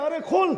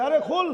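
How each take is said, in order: First: আরে খোল barked loud and high; scolding snap. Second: আরে খোল barked loud and high, stress on আরে; scolding snap. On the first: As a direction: bark আরে খোল like a stern rebuke. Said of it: "কয় না, ধমক দিয়ে". (ধমক দিয়ে আরে খোল) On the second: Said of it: "ধমক দিয়া কি বলে খাদেম রে?". (ধমকের সুরে আরে খোল) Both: Retold or imitated.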